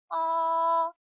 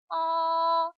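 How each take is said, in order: First: The pitch stays high and level throughout. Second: The pitch stays high and level throughout.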